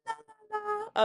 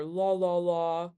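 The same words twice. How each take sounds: First: Very high sung-out "la, la, la"; high pitch demo. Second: "la, la, la" held down low; low pitch demo. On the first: Teacher showing students high pitch, high-pitched la's. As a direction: sing la way up high. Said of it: "A voice with a high pitch is like". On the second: Teacher showing students low pitch, low la's. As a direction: keep the la's down in a low register. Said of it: "A voice with a low pitch is down here". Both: Shown as a demonstration.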